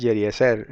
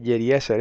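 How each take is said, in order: First: Jeriezer stressed on the final syllable; corrected pronunciation. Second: Jeriezer stressed on the E before zer; rejected pronunciation. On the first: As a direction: land the stress on the zer of Jeriezer. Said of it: "es Jeriezer". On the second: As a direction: say Jeriezer with stress off the last syllable. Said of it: "no es Jeriezer". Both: Retold or imitated.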